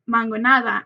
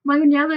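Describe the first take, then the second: First: The word ends with the syllables 'nada'. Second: The word ends with the syllables 'nela'. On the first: The speaker calls it right. "it is actually called mangonada" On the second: The speaker calls it wrong. "mangonela is actually the incorrect way to pronounce it"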